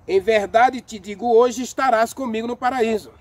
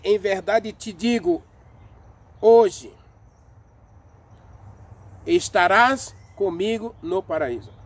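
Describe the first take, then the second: First: There is no pause right after "hoje". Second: There is a pause right after "hoje". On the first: Being in paradise happens that same day. "para quem lê sem a vírgula, lê assim" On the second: The promise itself is made today. "Veja que eu fiz uma pausa no hoje"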